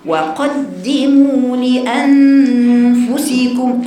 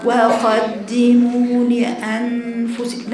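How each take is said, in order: First: وقدموا لأنفسكم slow, louder and chanted; forceful recitation. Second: وقدموا لأنفسكم slow and slack; lazy reading. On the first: Teacher demanding seriousness, reading with strength. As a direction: push energy into لأنفسكم. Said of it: "قوة في القراءة". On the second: Teacher mimicking the lazy way, slack and slow. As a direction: read وقدموا لأنفسكم without energy. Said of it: "لا، لا، لا. فين الجدية؟". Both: Shown as a demonstration.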